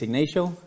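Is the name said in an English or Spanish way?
English. The name is said with an English-style pronunciation. This is how people in this country say it. "My name is Ignacio"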